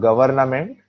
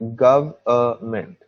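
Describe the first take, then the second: First: The N sound is pronounced in the middle. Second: The N sound is left out in the middle. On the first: The speaker calls it wrong. "It's not government" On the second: The speaker calls it right. "the N is silent"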